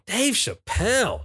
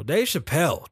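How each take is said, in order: First: Announcing. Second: Said in the usual way. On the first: Real, not acted. Drawn, higher announce.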